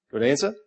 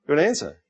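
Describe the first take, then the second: First: "Good answer?" rising at the end as a question. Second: "Good answer." falling at the end as a verdict; confirming. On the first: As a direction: put "answer" up high, asking for agreement. Checks the answer with the congregation. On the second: Confirms the answer after asking. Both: Real, not acted.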